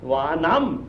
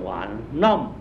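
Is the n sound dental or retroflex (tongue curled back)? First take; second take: dental; retroflex. First: The n is a plain dental nasal. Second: The n is a retroflex nasal, tongue curled back. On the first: The word stands alone, not in a compound. "这个是NA" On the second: The word is part of a compound. "要卷舌头的鼻音了"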